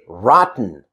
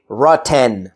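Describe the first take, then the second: First: No vowel is heard between t and n. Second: A clear vowel is heard between t and n. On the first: The speaker calls it right. "I say rotten" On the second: The speaker calls it wrong. "I don't say rotten"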